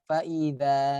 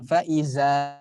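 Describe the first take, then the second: First: The z sound is light and thin. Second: The z sound is heavy and thick. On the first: The speaker calls it right. "faiza tipis" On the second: The speaker calls it wrong. "Bukan faiza"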